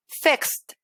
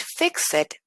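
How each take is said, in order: First: "fixed" as one syllable, fixt. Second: "fixed" as two syllables, FIX-ed; wrong -ed pronunciation. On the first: Teacher correcting learners, "fixed" said as fixt. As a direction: drop the E, end "fixed" on KST. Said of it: "voy a decir". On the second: Teacher showing what not to say, extra-syllable "fixed". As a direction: sound out the E in "fixed". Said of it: "En lugar de decir". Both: Shown as a demonstration.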